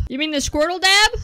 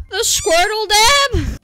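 First: Said in the usual way. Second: High, slow put-on cartoon voice; cartoon Squirtle dab voice. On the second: Shown as a demonstration. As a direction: drag it out in a silly squeaky voice. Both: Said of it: "don't ask me to do that again".

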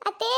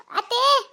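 First: Said in the usual way. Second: High, loud pleading call; daughter-in-law in labour shouting for her mother-in-law, loud and high. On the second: Acted. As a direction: cry out for help from the next room. Labouring woman calls mother-in-law.

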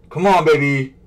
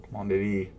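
First: Loud pleading. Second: Said in the usual way. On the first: Real, not acted. Loud pleading with checkout page.

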